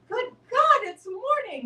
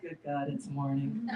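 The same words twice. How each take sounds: First: It is said with joyful delight. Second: It is said with weary dread.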